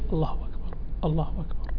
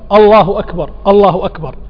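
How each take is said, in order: First: It is said in a low, quiet voice. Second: It is said in a raised, loud voice. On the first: The caller says it mainly to hear himself. "أن يقول التكبير بصوت منخفض" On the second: The caller says it for others to hear. "ثم يرفع صوته"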